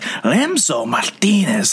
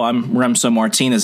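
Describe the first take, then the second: First: The name is said with exaggerated Spanish-style enunciation. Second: The name is said plainly, without exaggerated enunciation. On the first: Others overdo the name to show they know Spanish. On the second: This is how the name's owner says it.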